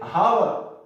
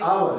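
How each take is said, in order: First: The word starts with an h sound. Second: The word starts with a vowel, no h. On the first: The speaker calls it wrong. "लोग इसको पढ़ते हावर, ये हालांकि हावर नहीं है, ये totally गलत है" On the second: The speaker calls it right. "ये आवर है"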